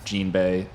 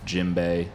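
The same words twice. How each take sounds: First: It is said with an n before b. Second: It is said with an m before b. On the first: "Sometimes it's Jinbei" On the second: "with an M instead of N"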